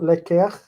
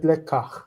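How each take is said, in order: First: Lekech with an e in the second syllable; wrong e-vowel form. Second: Lekach with an open a in the second syllable; patach vowel. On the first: Teacher showing students the form to avoid, lekech with e. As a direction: say lekech with e where the a belongs. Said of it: "takes the patach instead. So it's not lekech". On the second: Teacher correcting to the guttural form, lekach with a. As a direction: land lekach on a clear a before the guttural. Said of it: "takes the patach instead". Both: Shown as a demonstration.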